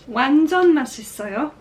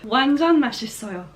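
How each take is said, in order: First: It is said with a questioning, rising tune. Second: It is said with a sure, statement tune. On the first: It asks whether the coffee is delicious. The speaker calls it wrong. "that sounds like a question" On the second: It states that the coffee is delicious. The speaker calls it right. "I need to sound sure in it"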